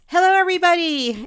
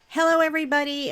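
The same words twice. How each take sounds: First: It is said with more emphasis and energy. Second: It is said plainly, without extra emphasis.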